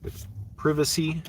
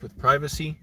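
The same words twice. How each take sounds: First: Privacy is said in a British-style pronunciation. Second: Privacy is said in the speaker's plain accent.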